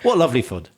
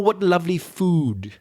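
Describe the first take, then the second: First: The vowel in food is short. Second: The vowel in food is long. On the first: "They're all short" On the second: "you won't hear anyone in Belfast say"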